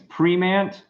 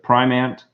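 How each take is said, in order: First: The name is said with a fancier-sounding pronunciation. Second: The name is said with its plain, standard pronunciation. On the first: The speaker likes this version better. The speaker calls it wrong. "because it sounds fancy" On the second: This is how the name is meant to be said. The speaker calls it right. "adhere to the rules of Primant"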